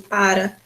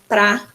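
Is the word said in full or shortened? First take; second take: full; shortened. First: The word is said in full with two syllables. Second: The word is shortened to one syllable. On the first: "em vez de para" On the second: "quando eu falo pra, em vez de para"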